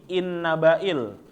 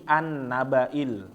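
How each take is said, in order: First: The word begins with an 'i' sound. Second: The word begins with an 'a' sound. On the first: It is joined to a preceding word. "bukan menjadi in nabail" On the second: It is read on its own, without a preceding word. "Kalau misalnya dia terpisah ... tapi menjadi an nabail"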